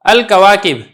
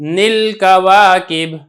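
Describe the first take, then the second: First: The phrase begins with a vowel, no n sound. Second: The phrase begins with an added n sound. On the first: The speaker calls it right. "तो आपने नून से आगाज नहीं करना" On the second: The speaker calls it wrong. "ये ठीक अमल नहीं है"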